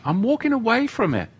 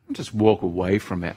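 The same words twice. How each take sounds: First: Higher, fast, playful sing-song; sing-song reply. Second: Said in the usual way. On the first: Acted. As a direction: toss it off high and quick, teasing. Answers his own advice lightly.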